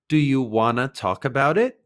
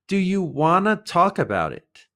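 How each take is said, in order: First: "Want to" is blended quickly into "wanna". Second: "Want to" is said as two full words.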